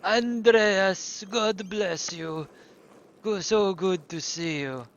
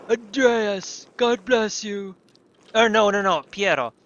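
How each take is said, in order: First: Slow, hammed-up Italian accent; mock Italian accent. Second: Hammed-up Italian accent, high and loud; a mock Italian monk blessing; vague Italian accent. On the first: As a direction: drawl out a fake Italian greeting. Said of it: "I know that's not really Italian". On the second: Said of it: "Sounds vaguely Italian".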